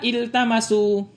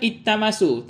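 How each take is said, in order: First: The L is pronounced clearly before the T. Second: The L merges into a doubled T sound. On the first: The word is treated as a verb. The speaker calls it right. "Jadi dibaca jelas lamnya" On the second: The word is treated as a noun with the article. The speaker calls it wrong. "Kalau ini isim, maka dibaca ittamasu"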